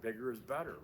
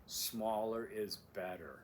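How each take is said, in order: First: Said in the usual way. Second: Smaller leaned on slowly; slow, pointed smaller; stress on smaller. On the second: Shown as a demonstration. Instructor contrasting smaller against bigger. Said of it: "important aspect".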